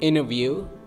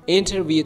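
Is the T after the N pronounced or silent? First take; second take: silent; pronounced. First: The T after the N is silent. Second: The T after the N is pronounced.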